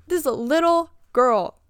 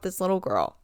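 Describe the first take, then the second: First: "little" stretched and stressed, fed up; exasperated emphasis. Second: Said in the usual way. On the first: Real, not acted. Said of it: "thinking about this little girl".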